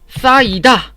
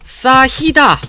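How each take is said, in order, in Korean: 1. 두 번째 음절 앞에서 ㅎ 소리가 들리지 않습니다. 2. 두 번째 음절 앞에서 ㅎ 소리가 들립니다. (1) "싸이다 라고 한다는" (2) "싸히다 라고 하지 않고"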